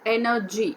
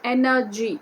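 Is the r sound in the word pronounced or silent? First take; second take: silent; silent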